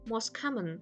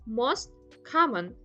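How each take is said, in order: First: The t sound disappears between the words. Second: The t sound is clearly pronounced.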